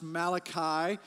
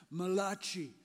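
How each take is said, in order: First: Said in the usual way. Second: Malachi said as "ma-LAH-chee"; Malachi mispronounced Italian-style. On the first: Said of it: "it's also pronounced Malachi". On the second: Shown as a demonstration. Pastor jokes about the Italian prophet, Malachi said Italian-style. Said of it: "some refer to it as the Italian prophet".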